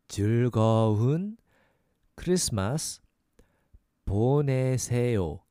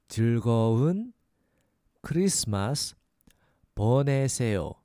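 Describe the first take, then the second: Both takes have the same delivery.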